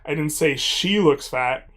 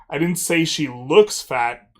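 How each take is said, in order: First: The word "I" carries the main stress. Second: The word "looks" carries the main stress. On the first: Someone else said it. "but I said someone did" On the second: She actually is fat, not just looks it. "I said that she just is fat"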